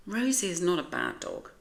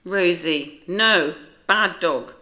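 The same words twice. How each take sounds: First: Said in the usual way. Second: Loud, slow stern scolding. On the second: Acted. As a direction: scold the dog firmly, louder. Owner scolds growling dog.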